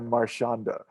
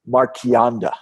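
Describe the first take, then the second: First: The name is said with a North American pronunciation. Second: The name is said with an Italian pronunciation. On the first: "as we say in North America" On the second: "I'm going to try to give the Italian pronunciation of"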